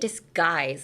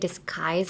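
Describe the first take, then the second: First: The consonant after 'dis' sounds like a G. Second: The consonant after 'dis' sounds like a K. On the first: The speaker calls it wrong. "like with a G" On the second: The speaker calls it right. "you're kind of using the upper area"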